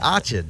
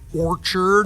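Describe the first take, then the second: First: It is said in a Rhode Island accent. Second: It is said in a standard American accent. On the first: "my last Rhode Island word" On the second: "instead of an apple orchard"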